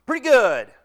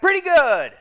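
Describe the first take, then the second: First: Said in the usual way. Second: Loud, higher call back; retold shouted answer; shouted reply. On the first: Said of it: "I kinda smiled when I heard that response". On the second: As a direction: holler it back casually. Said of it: "The other shouted back".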